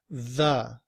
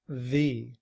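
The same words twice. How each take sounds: First: The vowel is a weak schwa. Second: The vowel is a full vowel. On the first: The next word begins with a consonant. "And then we use the schwa" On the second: The next word begins with a vowel. "Then we aren't using this pronunciation, the. Instead, we're saying the"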